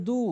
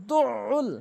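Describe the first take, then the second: First: দু as one plain "doo"; wrong, no ain. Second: দুউল as "du" then a throaty "ul"; correct ain. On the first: Retold or imitated. Teacher mimics our mistake, plain vowel. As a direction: say দু without any throat sound. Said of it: "এখানে ভুল উচ্চারণ করে বলি". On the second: Shown as a demonstration. Teacher gives the correct version, clear pharyngeal ain. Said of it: "সঠিক উচ্চারণ হচ্ছে".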